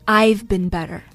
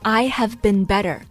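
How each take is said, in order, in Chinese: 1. 'I have' 缩略为 'I've'。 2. 'I have' 是说完整形式。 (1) "就缩成了" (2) "I've 就是I have 的缩写"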